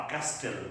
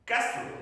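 First: Castle with the T sounded, slow; castle said the wrong way; castle incorrectly; wrong pronunciation. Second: Castle with a silent T, higher; correct pronunciation. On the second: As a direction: say castle as KAS-ul. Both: Shown as a demonstration. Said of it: "not castle".

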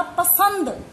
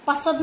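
First: पसंद with a clear nasal n before द; correct pasand. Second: पसद said without the nasal, flat pa-sad; wrong form pasad. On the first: Teacher to pupil, giving the correct पसंद. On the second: Teacher to pupil, showing the wrong पसद. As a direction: say पसद, dropping the ng sound. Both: Shown as a demonstration. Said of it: "पसद नहीं होता".

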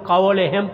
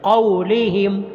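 First: क़ौलिहिम with the vowel after लाम made long e; the common mistake, लाम vowel stretched; wrong pronunciation. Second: क़ौलिहिम with a short i after लाम; correct pronunciation. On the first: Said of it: "लाम को मजहूल नहीं पढ़ना". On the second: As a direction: say क़ौलिहिम with short clean vowels. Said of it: "ये इस तरह नहीं करना". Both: Shown as a demonstration.

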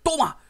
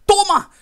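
First: Loud, high triumphant yell; excited shout. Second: Even louder, higher victory scream; bigger excited shout. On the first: Streamer cheering a kill for his viewers, shouting. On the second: Streamer topping his own cheer for viewers, screaming. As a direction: let it all out, topping the first cheer. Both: Real, not acted. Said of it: "Lo siento que me emocione".

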